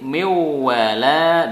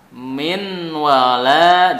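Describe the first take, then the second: First: The n sound merges into the w. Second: The n sound is clearly pronounced.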